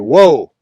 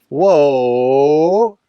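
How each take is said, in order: First: It is short, sharp and firm. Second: It is drawn out and soft.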